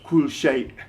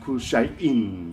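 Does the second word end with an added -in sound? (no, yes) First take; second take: no; yes. First: The second word ends without an -in ending. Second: The second word ends with a full -in ending. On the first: This is the everyday short form. "normally pronounced in modern standard Arabic as kul shay" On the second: This is the full formal form marking the case. "will be pronounced kul shay'in because it's in the accusative case"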